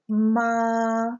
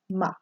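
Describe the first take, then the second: First: The pitch stays high and level. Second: The syllable is short and light. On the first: "the first tone, you almost say it like someone singing a pitch in a choir. You just kind of hold it" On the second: "the light sound"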